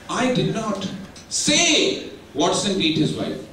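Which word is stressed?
say. The stress falls on the word say. It was implied some other way, not said. "I might have done some actions, gesticulations"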